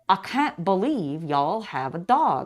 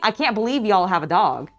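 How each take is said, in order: First: It is said slowly with a southern drawl. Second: It is said quickly without a drawl. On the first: The speaker calls it right. "I gotta slow it down" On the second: The speaker calls it wrong. "I'm not saying"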